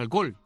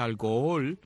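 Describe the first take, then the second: First: The middle vowels are merged in one go. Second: The middle vowels are said as separate syllables. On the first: "de una sola vez así, de un solo tirón" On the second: "Yo soy de los idiotas que dice alcohol"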